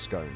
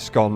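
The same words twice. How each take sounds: First: The vowel rhymes with stone. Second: The vowel rhymes with gone. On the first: The speaker calls it right. "It works on the same rules as stone" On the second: The speaker calls it wrong. "People who say scone are pronouncing it wrong"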